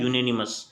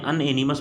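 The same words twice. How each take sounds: First: यूनेनिमस said "you-nanimous", opening on "yoo"; correct pronunciation. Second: अनएनिमस with "an" at the start, an-enimus; wrong pronunciation. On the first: Teacher repeating the right way for students, "you-nanimous". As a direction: model यूनेनिमस clearly with the "yoo" start. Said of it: "इसको हम लोगों को पढ़ना चाहिए". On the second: Teacher demonstrating the mistake students make, "an-enimus". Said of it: "pronunciation है वो सही नहीं है". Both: Shown as a demonstration.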